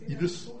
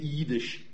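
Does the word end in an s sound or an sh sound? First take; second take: s; sh. First: It has a short i and ends in s. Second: It has a long i and ends in sh. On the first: This is how the Lithuanian dialect says it. "hun sagde iddes med kort i og med et s og ikke et sh til sidst" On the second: This is how most Polish dialects say it. "Men de fleste polske dialekter har et langt i. De siger jiddisch"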